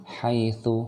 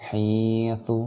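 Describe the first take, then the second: First: "haitsu" with a brief hai glide; short diphthong. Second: "haitsu" said as hiitsu, with a long i; long vowel. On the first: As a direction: chant "haitsu" without lengthening "hai". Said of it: "jangan dibaca panjang". ("haitsu" dibaca hai, tidak panjang) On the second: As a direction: hold a stretched "hii" in place of "hai". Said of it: "baca panjang dan ini". ("haitsu" dibaca hiitsu, panjang) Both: Shown as a demonstration.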